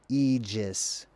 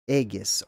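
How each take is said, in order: First: The g is a soft sound near the teeth. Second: The g is a hard sound from the throat. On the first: This follows the modern pronunciation. The speaker calls it wrong. "not the way that they pronounce it in the modern" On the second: This follows the original ancient pronunciation. The speaker calls it right. "I believe I'm pronouncing this word word the correct way"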